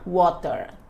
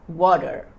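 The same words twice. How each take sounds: First: The middle consonant is a crisp t sound. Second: The middle consonant is a soft d-like tap. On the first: "Ao invés de falar water, ter, ter" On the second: "flap T"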